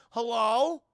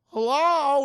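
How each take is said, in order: First: Loud, high, rising hello; questioning call-out. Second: Very loud, high, drawn-out hello, falling; full shouted call. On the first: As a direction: call out to see who's there. Acts out calling after figure. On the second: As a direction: holler down a long hallway. Calls again after a pause. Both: Retold or imitated.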